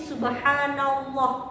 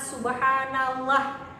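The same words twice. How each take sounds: First: The final 'llah' is heavy and thick, like 'loh'. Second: The final 'llah' is light and thin, like 'lah'. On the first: The speaker calls it right. "sehingga dibacanya loh, ditebalkan" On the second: The speaker calls it wrong. "bukanlah subhanallah"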